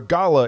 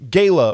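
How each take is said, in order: First: The name is said the European way. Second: The name is said the non-European way.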